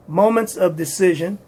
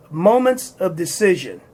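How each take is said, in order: Both takes have the same delivery.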